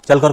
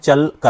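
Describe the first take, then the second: First: The word is said smoothly without a break. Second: The word is broken into two separate parts.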